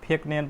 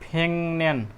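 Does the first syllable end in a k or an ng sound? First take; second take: k; ng. First: Each syllable is read separately, with a k sound. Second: The syllables merge, and the k becomes ng. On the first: The speaker calls it wrong. "फेक नेम पढेर भएन, यो मिस्टेक हुन्छ pronunciation" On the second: The speaker calls it right. "उच्चारण चाहिँ के हुन्छ? फेङन्यान भयो"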